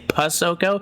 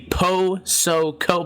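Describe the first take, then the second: First: The syllables run together with a reduced vowel. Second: Each syllable is said clearly and separately. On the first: This is a casual shortcut of the name. "I kind of cheat on my own and I just say" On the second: This is the proper form of the name. "if I tell you how to say my last name, I'll say"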